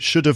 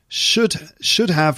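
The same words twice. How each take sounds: First: The h of have is dropped in a weak form. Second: The h of have is clearly pronounced.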